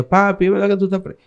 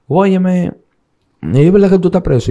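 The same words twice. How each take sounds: First: Put-on high, quick child's voice; little daughter's voice. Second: Higher, alarmed woman's voice asking; a lightly voiced anxious woman demanding the truth; voicing his partner. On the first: Three-year-old daughter asking her papi if he's jailed, high quick child voice. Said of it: "estaba la niña". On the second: Partner on the phone asking if he's in jail, higher alarmed voice. Partner asks him if jailed.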